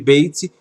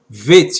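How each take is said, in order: First: The word begins with a b sound. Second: The word begins with a v sound. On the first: The letter has a dot inside. "em vez de Beit" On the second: The letter has no dot inside. "O nome dela passa a ser Veit"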